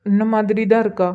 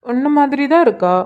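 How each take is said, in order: First: Subdued, level-pitched confirmation without a smile; unsmiling. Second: Higher-pitched, fond assurance; fond praise. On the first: Husband confirming the likeness to his wife, unsmiling. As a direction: repeat it soberly, with no lift. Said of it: "அத கொஞ்சம் சிரிச்சுக்கிட்டே சொல்லலாம்ல". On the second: Husband telling wife the baby looks like her, fondly. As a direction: say it with a lift in pitch, admiringly. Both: Acted.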